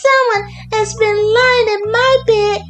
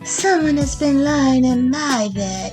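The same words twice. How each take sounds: First: It is said in a little wee voice. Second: It is said in a middle-sized voice. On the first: "cried in his little wee voice" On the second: "said in her middle-sized voice"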